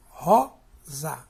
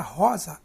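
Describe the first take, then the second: First: "rosa" in two beats, a loud "ro", then "za"; stress on "ró". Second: Said in the usual way. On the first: Shown as a demonstration. Teacher showing the strongest syllable, "rosa" split, loud "ro". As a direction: punch the first syllable of "rosa" and pause after it. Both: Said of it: "a sílaba mais forte é o ró".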